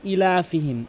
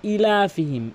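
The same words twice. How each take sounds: Both takes have the same delivery.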